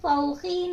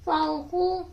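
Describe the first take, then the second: First: The word ends in an i vowel. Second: The word ends in an u vowel. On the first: "नहीं पढ़ेंगे" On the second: "नहीं पढ़ेंगे"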